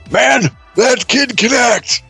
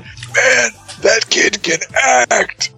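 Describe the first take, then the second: First: It is spoken in a normal voice. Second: It is spoken in a whisper. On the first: The speaker calls it wrong. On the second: The speaker calls it right.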